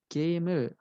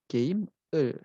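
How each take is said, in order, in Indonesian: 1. Konsonan akhir menyambung ke partikel. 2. Kata dan partikel diucapkan terpisah. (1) "cara bacanya itu gamer" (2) "bukan game "e""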